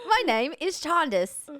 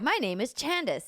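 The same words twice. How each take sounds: First: It is said in a put-on British accent. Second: It is said in the speaker's normal accent.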